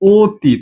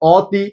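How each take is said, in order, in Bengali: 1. প্রথম স্বরধ্বনিটি একটি বদ্ধ 'oh' ধ্বনি। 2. প্রথম স্বরধ্বনিটি একটি খোলা 'aw' ধ্বনি। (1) "আমরা উচ্চারণ করি অতি, ... ও এর মতো হয়ে যাচ্ছে।" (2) "স্বর অ এর উচ্চারণ কিরকম আসবে?"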